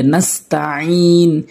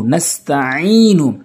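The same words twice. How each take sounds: First: "নাস্তাইন" closing on a held n; pausing form. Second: "নাস্তাইনু" slow, ending on short open u; continuing form. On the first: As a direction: stop "নাস্তাইন" on n, with no final u. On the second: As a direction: recite "নাস্তাইনু" with the final u sounded. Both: Shown as a demonstration. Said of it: "ওয়াকফ করলে".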